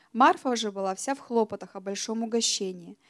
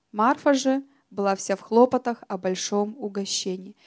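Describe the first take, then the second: Both takes have the same delivery.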